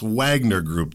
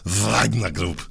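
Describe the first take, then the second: First: It is said with an American accent. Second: It is said with a Russian accent.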